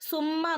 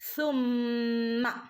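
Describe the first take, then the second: First: The first sound is a plain hissed s. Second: The first sound is air between tongue and teeth. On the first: The speaker calls it wrong. "ചില ആളുകൾ സുമ്മ നോദിപ്പോവും" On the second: The speaker calls it right. "പല്ലിന്റെ ഇടയിലൂടെ നാവിന്റെ ഇടയിലൂടെ കാറ്റ് ഇങ്ങനെ പുറത്തേക്ക് വരുന്ന രൂപത്തിലാവണം"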